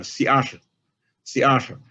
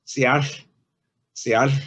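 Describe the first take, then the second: First: "siach" with a crisper final hiss than the modern take; sharper old ending. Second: "siach" ending with a breathy hiss out the side of the tongue; lateral fricative ending. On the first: Lecturer showing the older sharper pronunciation, crisper ending. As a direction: snap the last sound of "siach". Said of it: "pronounced more sharply than it is now". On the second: Lecturer demonstrating the voiceless lateral sound, sounded carefully. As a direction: blow air past the tongue on the end of "siach". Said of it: "blowing out the right side". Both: Shown as a demonstration.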